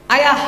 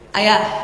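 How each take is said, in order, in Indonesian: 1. Nadanya sangat tinggi dan keras. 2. Nadanya sedikit lebih tinggi. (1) "Panggilan ketiga perempuan Pak, langsung tujuh oktav" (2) "panggilan kedua suaranya naik setengah oktav"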